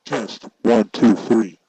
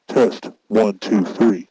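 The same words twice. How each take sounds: The two takes are said the same way.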